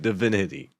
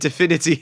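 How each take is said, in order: First: The word is said with a plain accent. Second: The word is said with a German accent. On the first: The speaker calls it right. "instead of divinity" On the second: The speaker calls it wrong. "I said divinity"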